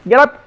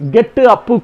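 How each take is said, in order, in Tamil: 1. 'Up' சுத்தமாக p ஒலியில் முடிகிறது. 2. 'up'-க்கு பின்னால் கூடுதலாக 'u' உயிரெழுத்து சேர்க்கப்படுகிறது.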